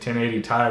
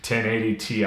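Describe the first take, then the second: First: Ti is said as a single word. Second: Ti is said as two separate letters. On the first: The speaker calls it wrong. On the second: The speaker calls it right.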